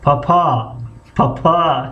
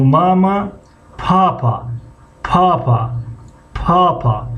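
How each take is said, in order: First: پاپا with the second pa held long; teacher demo of پاپا, last pa long; second syllable drawn out. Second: پاپا with the first pa held long; teacher demo of پاپا, first pa long; first syllable drawn out. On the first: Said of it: "اما اگر هجای دوم بکشیم". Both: Shown as a demonstration.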